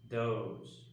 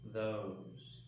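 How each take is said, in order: First: It starts with a D sound. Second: It starts with a voiced TH sound. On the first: The speaker calls it wrong. "Some people tend to confuse this for the D sound" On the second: The speaker calls it right. "when it should be"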